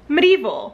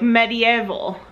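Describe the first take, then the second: First: It is said with fewer syllables, American style. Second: It is said with an extra syllable, British style. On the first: "we just say it the American way" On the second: "in the UK, you pronounce it like an extra syllable"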